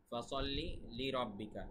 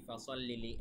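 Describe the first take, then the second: First: ফাসাল্লি, then লিরাব্বিকা as one word; correct word break. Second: ফাসাল্লি লি run together as a single word; wrong word break. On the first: Teacher corrects the mistake, ফাসাল্লি and লিরাব্বিকা said as two words. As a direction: break after ফাসাল্লি, keep লি joined to রাব্বিকা. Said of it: "শব্দটা কিন্তু এরকম". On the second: Teacher quotes a common mistake, ফাসাল্লি লি joined as one word. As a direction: attach লি onto the end of ফাসাল্লি. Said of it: "আসলে কিন্তু তা ভুল". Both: Shown as a demonstration.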